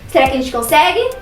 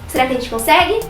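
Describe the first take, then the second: No difference in how they are said.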